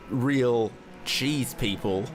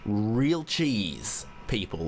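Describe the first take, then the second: First: The stress is on people. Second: The stress is on real cheese. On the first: They are people made out of cheese. "if you change the stress or the emphasis" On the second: They are people passionate about quality cheese. "real and cheese are in bigger text than the other bit"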